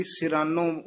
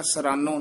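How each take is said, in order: First: ਸਿਰਾਨੋ said si-ra-no with a clear i after s; ਸਿਰਾਨੋ ਸਹੀ ਉਚਾਰਨ; with sihari. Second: ਸਰਾਨੋ said sa-ra-no with the i dropped; the mistaken ਸਰਾਨੋ, no vowel after s; ਸਰਾਨੋ ਗਲਤ ਉਚਾਰਨ; wrong, no sihari. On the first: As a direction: pronounce ਸਿਰਾਨੋ sirano, the sihari sounded. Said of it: "ਸਿਰਾਨੋ ਉਚਾਰਨ ਕਰਨਾ". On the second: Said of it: "ਸਰਾਨੋ ਨਹੀਂ ਕਹਿਣਾ". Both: Shown as a demonstration.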